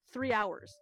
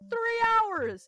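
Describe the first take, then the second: First: Said in the usual way. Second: High, loud outraged repeat; three hours yelled in outrage; exasperated. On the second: Retold or imitated. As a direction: blurt it out in disbelief. Repeats louder in disbelief.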